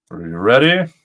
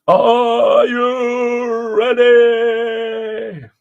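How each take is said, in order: First: Said in the usual way. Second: Higher, louder, very slow stretched call; drawn-out hype call. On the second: Shown as a demonstration. Host hyping viewers before reading the motion, in a stretched announcer call. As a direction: hype the crowd like a ring announcer. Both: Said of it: "repeated as a drawn-out call".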